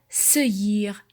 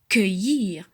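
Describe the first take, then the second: First: The word begins with an S sound. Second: The word begins with a K sound. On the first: The speaker calls it wrong. "Je mets le U devant le E pour ne pas dire seuillir" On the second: The speaker calls it right. "pour avoir cueillir, pour avoir le son que"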